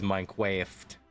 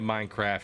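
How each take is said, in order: First: The word is pronounced in an odd, imitated way. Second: The word is pronounced the ordinary way. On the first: "That's how Chuzzy pronounces it" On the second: "She doesn't say Minecraft"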